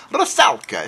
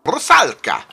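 First: A second go at Rusalka that drifts toward Italian; Italian-sounding accent. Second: A stab at a Russian accent on Rusalka; attempted Russian accent. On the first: Retrying the title and landing on an Italian accent. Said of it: "It sounded Italian". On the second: Announcing the title in a mock Russian accent. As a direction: Rusalka said with a would-be Russian accent, loud and falling. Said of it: "I just wanted to do it in an accent". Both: Shown as a demonstration.

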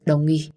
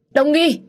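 First: Said in the usual way. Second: Name cried out very high and loud; desperate cry. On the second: A narrator's reading. Man holds the wounded woman, desperate shout of her name. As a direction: scream her name in distress.

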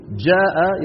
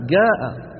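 First: Said in the usual way. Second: "جاء" mit hartem g statt dsch, also ga; "جاء" wie in Taizz, j als hartes g; dialect g sound. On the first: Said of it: "بدلًا من أن يقولوا". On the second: Shown as a demonstration. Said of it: "نفس الصوت موجود ... مكان الجيم".

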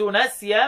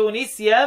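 First: نسيا recited as "nasyan"; نسيا starting on an a vowel, "na"; fatha reading. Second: نسيا recited slowly as "nisyan"; slow نسيا starting on an i vowel, "ni"; kasra reading. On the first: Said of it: "مين اللي قرأها بالفتح". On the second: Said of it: "يقرأوا بالكسر". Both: Shown as a demonstration.

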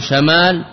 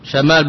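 First: شمال said sha-mal, first vowel a; شمال with an open a after the sh; with fatha. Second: شمال said shi-mal, first vowel i; شمال with a short i after the sh; with kasra. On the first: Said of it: "شمال بالفتح اسم للريح". (شمال بفتح الشين: شَمال) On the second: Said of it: "وشمال للجارحة". (شمال بكسر الشين: شِمال) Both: Shown as a demonstration.

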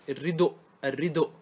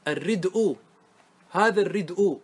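First: الردء said "ar-ridu'", cut on a glottal stop; damma moved back. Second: الردء said "ar-rid'u", u after the glottal stop; final damma after hamza. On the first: Teacher showing the pausal form, الردء as "ar-ridu'". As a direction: put u on the d of الردء, then stop on hamza. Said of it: "في الوقف، تقول". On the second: Teacher giving the voweled example, الردء as "ar-rid'u". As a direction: end الردء on hamza plus u. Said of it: "انقل الضمة". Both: Shown as a demonstration.

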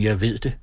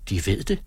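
First: Said in the usual way. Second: "De ved det" rising into a question; questioning echo. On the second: A narrator's reading. Sofie echoes Møller's claim, questioning. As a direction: repeat "De ved det" back, tune lifting at the end.

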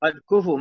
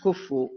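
First: "كفوا" as ku-fu with a single light f; teacher models "كفوا" without shadda; undoubled consonant. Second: "كفوا" as kuf-fu with a doubled f; teacher demonstrates the mistaken shadda in "كفوا"; wrong doubled consonant. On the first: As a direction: pronounce "كفوا" with two short syllables, no doubling of the f. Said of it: "بدون تشديد". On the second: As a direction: lean on a long double f in "كفوا". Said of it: "مش كفوا". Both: Shown as a demonstration.

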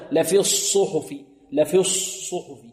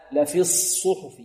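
First: "الصحف" with a rounded, held first ṣād; lips rounded early. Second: "الصحف" with an unrounded held s, then u; lips unrounded. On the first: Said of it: "البعض يضم شفتيه في الصاد". (ضم الشفتين في صاد "الصحف") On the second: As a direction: round the lips only after the first ṣād of "الصحف". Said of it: "لا نضم فيها الشفتين". (صاد "الصحف" الساكنة بلا ضم) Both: Shown as a demonstration.

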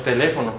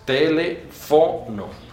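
First: Teléfono as te-LE-fo-no; wrong Spanish stress. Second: Telefono very slowly, te-le, FO, no; Esperanto stress. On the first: Teacher shows what it is not, teléfono stressed on LE. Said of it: "No es teléfono". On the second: Teacher corrects the stress, telefono broken up with long FO. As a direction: isolate and stretch FO in telefono. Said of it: "es telefono". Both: Shown as a demonstration.

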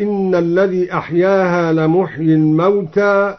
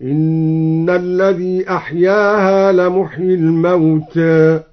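First: Said in the usual way. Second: Slow recitation, final a of الموتى tilted slightly toward e; الموتى with a half-tilted final vowel, like mawtè; taqlil. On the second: Shown as a demonstration. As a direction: chant slowly, ending الموتى between a and e. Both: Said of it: "قلل لفظ الموتى هكذا".

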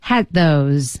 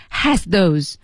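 First: "had those" linked, the z of has dropped; eased pronunciation. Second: "has those" with the z fully sounded before th; effortful full pronunciation. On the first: Teacher showing the smoother way, "had those" without the z. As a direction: let "had" slide smoothly into a stressed "those". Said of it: "这样读会比较顺一点". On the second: Teacher showing the harder way, "has those" with a full z. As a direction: sound every consonant in "has those", laboriously. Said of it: "有点吃力". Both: Shown as a demonstration.

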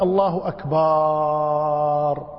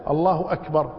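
First: أكبر with its last vowel held very long, like akbaaar; lengthened ba. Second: Said in the usual way. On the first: Shown as a demonstration. Teacher mimics those who stretch the ba, final vowel prolonged. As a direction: drag out the end of أكبر on one level note. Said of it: "يمد الباء". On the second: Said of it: "فإذا".

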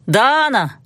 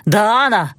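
First: Calling from the corridor. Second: Mild call from behind a door; calling from the corridor. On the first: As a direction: call again through the door, more insistent. (повторный крик из-за двери) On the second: (зов из коридора) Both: A narrator's reading. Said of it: "закричал из коридора".

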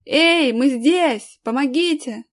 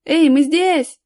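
First: Drawn-out, raised calling; yelling for help. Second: Loud, raised call for attention; shouting. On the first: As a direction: call slowly and loudly into the distance. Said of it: "тут же заорал". (протяжный крик о помощи) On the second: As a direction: call out to searchers, high and loud. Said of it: "закричал Аркаша". (громкий крик, зов) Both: A narrator's reading.

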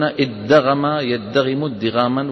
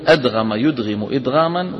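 First: ادغم يدغم ادغاما with a doubled dd, said slowly; Kufan form. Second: أدغم يدغم إدغاما said with a plain a- glottal start; Basran form. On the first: Teacher giving the Kufan reading, slowly. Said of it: "والكوفيون يقولون". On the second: Teacher giving the Basran reading to the class. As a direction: sound أدغم as adgham, unstressed. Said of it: "البصريون يقولون". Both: Shown as a demonstration.

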